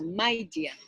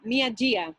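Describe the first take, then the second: First: The first word sounds like 'my', one syllable. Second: The first word sounds like 'mee-ah', two syllables. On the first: The speaker calls it right. "No es mía, Mai" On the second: The speaker calls it wrong. "Yo en mi cabeza siempre lo he leído como Mia Jia, pero a lo mejor no se pronuncia así"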